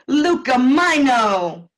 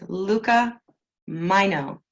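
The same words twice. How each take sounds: First: The name is said in an Italian accent. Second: The name is said in a plain English accent.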